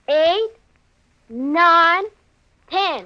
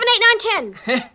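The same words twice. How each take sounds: First: The numbers are counted slowly. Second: The numbers are counted fast.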